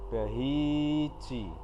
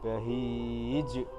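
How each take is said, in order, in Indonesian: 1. Kata bahij berakhir dengan vokal penuh. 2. Kata bahij berakhir dengan konsonan yang memantul kuat.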